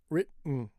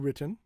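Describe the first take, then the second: First: The middle T is held back and not released. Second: The middle T is fully released. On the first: "Quick enunciation is written. You keep your tongue there" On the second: "that's really strong enunciation"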